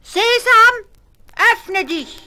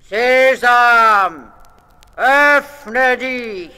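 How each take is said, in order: First: Very high, loud daring call; Ali Baba calling out. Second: Loud, high commanding shout; robber chief's call. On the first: Ali Baba trying the robbers' magic words, high call. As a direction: call out boldly, testing the magic. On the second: Robber chief ordering the cliff open, commanding shout. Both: A narrator's reading. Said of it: "hat gerufen".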